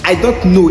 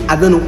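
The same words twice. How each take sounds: First: Each word is said fully and separately. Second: The words are cut and run together quickly. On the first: "Au lieu de dire" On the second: "il dit"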